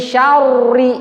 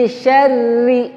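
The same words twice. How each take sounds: First: Syarri with lips pushed forward, heavy rounded r; wrong heavy ra. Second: Syarri with thin r, lips not pushed forward. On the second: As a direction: say syarri lightly, lips relaxed. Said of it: "Jangan maju bibirnya". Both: Shown as a demonstration.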